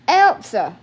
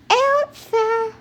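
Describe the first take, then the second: First: It is called out loudly in an adult voice. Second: It is said in a tiny, high baby voice. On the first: "I would be out there hollering for her" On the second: "in her little bitty teeny tiny baby voice"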